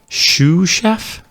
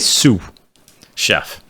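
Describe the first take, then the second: First: The first word starts with an sh sound. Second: The first word starts with an s sound. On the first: The speaker calls it wrong. "That sounds weird" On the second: The speaker calls it right. "I'm going to say Sue Chef"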